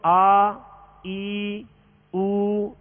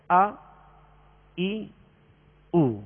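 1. حروف کھینچ کر لمبے ادا ہوتے ہیں۔ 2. حروف مختصر اور ہموار ہوتے ہیں۔ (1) "اس طرح نہیں کریں گے, یہ دراز ہو جائے گی" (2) "اس طرح پڑھیں گے"

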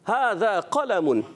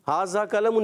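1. یہ عربی طرز کے تلفظ میں بولا گیا ہے۔ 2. یہ اردو طرز کے تلفظ میں بولا گیا ہے۔ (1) "تو کیا ہوگا" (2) "یہ تو آپ اردو زبان میں بول رہے ہو"

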